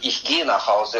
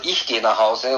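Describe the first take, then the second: First: The stress is on "gehe". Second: The stress is on "Ich".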